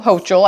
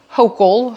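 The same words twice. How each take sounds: First: "Hochul" said as HOH-chul; pronounced with a CH. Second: "Hochul" said as HOH-kul; pronounced with a K. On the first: Host second-guesses the governor's surname, "Hochul" as HOH-chul. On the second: Host tries the governor's surname, "Hochul" as HOH-kul. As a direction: say "Hochul" with a hard K in the middle. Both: Real, not acted. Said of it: "don't know how to say her name".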